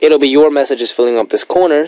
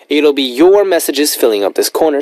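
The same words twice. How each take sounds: First: The pitch stays level, sounding flat and dull. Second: The pitch varies, sounding lively and engaging. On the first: The speaker calls it wrong. "it's a little less interesting" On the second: The speaker calls it right. "how I would say it now with a little bit of tone inflection"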